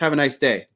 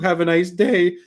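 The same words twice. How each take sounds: First: It is said in a firm, confident tone. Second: It is said in a weak, timid tone. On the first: The speaker comes across as self-assured. The speaker calls it right. "that sounds completely different" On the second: The speaker comes across as submissive. The speaker calls it wrong. "That sounds beta as fuck"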